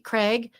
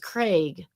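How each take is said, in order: First: The vowel is a short 'eh', like in 'leg'. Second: The vowel is a long 'ay', like in 'day'.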